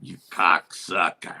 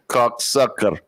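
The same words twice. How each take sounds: First: Low, slow Russian-voiced curse; imitated Russian. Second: Slow mimicked curse through laughs; echoed impression. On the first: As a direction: curse slowly and deep, mimicking the Russian. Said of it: "He drops, he goes". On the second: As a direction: echo the curse slowly, amused. Co-host echoes the imitated curse.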